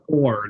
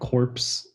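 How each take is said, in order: First: The word ends in an R sound. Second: The word ends in a PS sound. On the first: The speaker calls it right. "job core, not corpse" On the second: The speaker calls it wrong. "not corpse"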